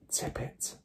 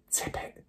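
First: Soft unvoiced whisper; girl whispering to the glass. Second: Soft unvoiced whisper; girl whispering to the glass again. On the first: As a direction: breathe the command at the glass. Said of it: "Matilda whispered". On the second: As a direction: breathe it at the glass. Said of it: "she whispered again". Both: A narrator's reading.

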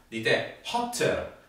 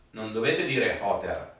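First: Hotter with a crisp, clearly heard double T; right hotter. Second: Hotter said with a soft, lost T; hotter without a clear T; wrong hotter. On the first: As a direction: hit the T in hotter. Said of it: "bisogna sentire quella T". (hotter con la T ben marcata) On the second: (hotter con la T debole) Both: Shown as a demonstration.

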